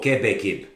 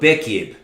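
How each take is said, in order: First: The word is said with an initial k sound. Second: The word is said without an initial k sound. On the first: "K sometimes is silent. So some people do pronounce the K, some do not" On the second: "So it's called bekib"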